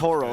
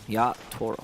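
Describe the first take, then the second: First: The T is soft, like an American flap. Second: The T is strong and clearly released. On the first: The speaker calls it wrong. "the T naturally sounds American, so I do apologize" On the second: The speaker calls it right. "It should be a stronger T"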